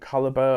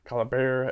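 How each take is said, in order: First: It is said in a non-American accent. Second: It is said in an American accent.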